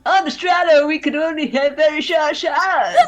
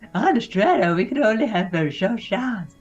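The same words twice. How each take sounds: First: It is said in a slightly high skater-boy voice. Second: It is said in the speaker's normal voice.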